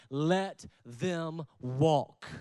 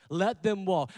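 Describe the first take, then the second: First: Slow emphasis. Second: Said in the usual way. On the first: Real, not acted. Preacher telling the church to release those who leave, very slow. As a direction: let them walk, drawn out very slowly. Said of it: "preacher slows for emphasis". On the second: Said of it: "repeated at normal pace".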